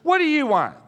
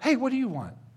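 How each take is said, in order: First: It sounds harsh and annoyed. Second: It sounds warm and friendly.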